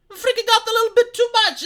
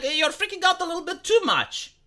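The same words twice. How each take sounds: First: "freaking out a little bit too much" jumps much higher, louder and faster; repeating his warning to panicking viewers, higher and louder; exasperated repeat. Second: Said in the usual way. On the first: Retold or imitated. Telling panicking people to calm down, higher, louder and faster.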